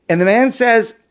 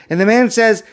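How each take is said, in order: No difference in how they are said.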